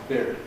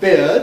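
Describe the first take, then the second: First: The word ends with a clear r sound. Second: The word ends without an r sound. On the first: "really like bid plus an R" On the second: "as we say it"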